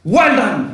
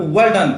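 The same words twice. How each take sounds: First: Bright praising exclamation, a bit louder; exclaiming praise. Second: Praising call with a touch of cheer; mild exclamation. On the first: Teacher demos an exclamation to the class, with a praising call. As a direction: cheer the student on: well done. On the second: Teacher repeats the example exclamation, with mild praise. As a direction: say well done as light praise. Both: Shown as a demonstration. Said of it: "example दे रहा हूं मैं आपको".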